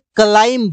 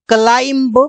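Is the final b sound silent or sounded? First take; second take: silent; sounded. First: The final b sound is silent. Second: The final b sound is pronounced. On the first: The speaker calls it right. "इसे क्लाइंब बोला जाता है" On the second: The speaker calls it wrong. "इसे कहते हैं लोग क्लाइंब, लेकिन इसे क्लाइंब नहीं बोला जाता"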